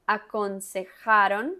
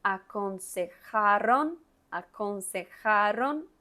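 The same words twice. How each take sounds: First: Aconsejaron with a firm throaty j and a tapped r; teacher models aconsejaron for students; clear j and r. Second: Aconsejaron said slowly, jota and ere distinct; slow teacher repeat of aconsejaron; slow model. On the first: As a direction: say aconsejaron stressing the jota and the ere. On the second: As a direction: drag out aconsejaron syllable by syllable. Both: Shown as a demonstration. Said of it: "Mire que tiene la J, tiene la R".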